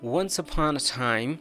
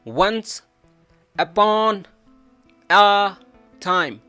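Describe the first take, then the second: First: The words run together in one linked chain. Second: Each word is said separately, with breaks. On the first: The speaker calls it right. "just say" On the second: The speaker calls it wrong. "नो नीड टू से"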